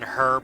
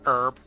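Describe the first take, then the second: First: The word is pronounced the British way. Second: The word is pronounced the non-British way.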